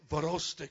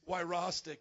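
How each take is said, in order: First: The surname is said with a Polish pronunciation. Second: The surname is said with an English pronunciation. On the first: "if you have a Polish little blood in you, you can say" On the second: "the English pronunciation for all you Americans here"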